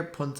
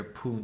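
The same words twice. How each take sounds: First: Punt with a short u; plain punt. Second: Punt with a long fada u, poont; southern punt. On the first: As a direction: say punt like most of Ireland. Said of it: "in most of Ireland". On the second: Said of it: "down south you hear punt". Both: Shown as a demonstration.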